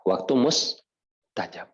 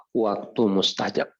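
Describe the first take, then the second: First: Waktu mustajab drawn out slowly, each word weighted; slow emphatic repeat. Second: Said in the usual way. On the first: Shown as a demonstration. Preacher repeating Waktu mustajab slowly to the congregation.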